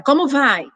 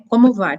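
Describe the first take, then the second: First: "Como vai?" pitched higher, with an emotional edge; higher-toned reading. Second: Said in the usual way. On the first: Shown as a demonstration. Reading the same message in a charged mood, higher-pitched. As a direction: read it as if already upset. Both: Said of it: "E ela vai ler com o tom".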